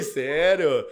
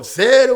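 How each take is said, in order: First: Said in the usual way. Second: High, loud disbelieving "Sério?"; wife shocked the pasta is allowed, loud high disbelief; surprised. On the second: Retold or imitated. Wife can't believe diet break.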